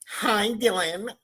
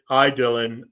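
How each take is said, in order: First: It is said in a high-pitched, girly voice. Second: It is said in a deeper, plain voice.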